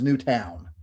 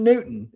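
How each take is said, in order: First: "Newtown" with a full "town" ending; Newtown pronunciation. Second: "Newton" with a weak, swallowed second syllable; Newton pronunciation. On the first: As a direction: say "Newtown" so the second W is clear. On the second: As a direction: say "Newton" like the scientist's name. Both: Shown as a demonstration. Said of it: "It had a second W in it".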